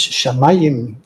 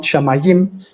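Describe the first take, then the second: First: Shamayim with the stress on the middle syllable, MA; Hebrew stress. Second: Shamayim with the stress pushed onto the final syllable; wrong stress. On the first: Lecturer correcting to the Hebrew, middle-syllable stress on shamayim. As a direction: say shamayim slowly, leaning on the second syllable. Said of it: "it's shamayim in Hebrew". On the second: Lecturer showing the mistaken Hebrew word, final stress on shamayim. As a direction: say shamayim French-style, accent on its last syllable. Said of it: "It's not shamayim". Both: Shown as a demonstration.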